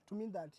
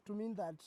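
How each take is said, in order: Both takes have the same delivery.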